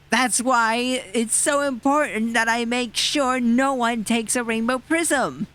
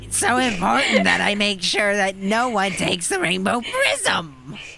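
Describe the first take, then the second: First: The voice is smooth, without any raspiness. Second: The voice is raspy and rough. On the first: The speaker calls it wrong. "His voice just like lost all the rapsiness for that last paragraph" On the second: The speaker calls it right. "There you go"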